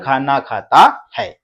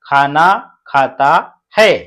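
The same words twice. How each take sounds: First: It is read at a slightly faster pace. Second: It is read at a slower, normal pace.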